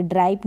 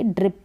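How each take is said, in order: First: "ड्राइप" with an eye vowel; wrong long vowel. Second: "ड्रिप" with a short i; correct short vowel. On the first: Teacher warning beginners off a wrong reading, "ड्राइप" with eye vowel. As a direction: say "ड्राइप" to rhyme with pipe. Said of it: "ड्राइप नहीं पढ़ेंगे". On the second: Teacher giving beginners the right reading, "ड्रिप" with short i. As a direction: say "ड्रिप" to rhyme with lip. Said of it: "ड्रिप पढ़ेंगे". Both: Shown as a demonstration.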